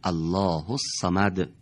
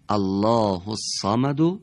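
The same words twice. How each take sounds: First: The phrase ends on a silent final consonant. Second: The phrase ends with a short final vowel. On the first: The reader stops on this word. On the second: The reader continues without stopping.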